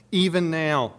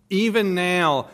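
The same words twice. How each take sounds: First: Said in the usual way. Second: Slow, weighted "even now" with stress on "even"; emphatic repeat. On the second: Shown as a demonstration. Preacher repeats it to congregation, slower and emphatic.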